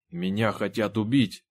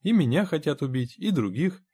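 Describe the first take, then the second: First: Certain, with a touch of fear; understated dread, said with conviction; confident but fearful. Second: High-pitched, placating agreement; reassuring character voice, pitched well up. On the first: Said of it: "уверенно и со страхом произнёс Сайлас". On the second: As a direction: soothe a frightened man by agreeing. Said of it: "успокаивающе сказал Генри". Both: A narrator's reading.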